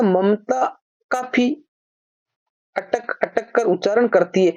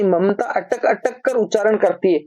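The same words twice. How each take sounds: First: Slow, with काफी drawn out and lifted; stress on काफी. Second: Said in the usual way. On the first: Shown as a demonstration. Hindi teacher showing students the extra word, stressing काफी. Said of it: "तो ये जो एक तो आ गया". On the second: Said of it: "तो ये जो अटक अटक रहा है भाई".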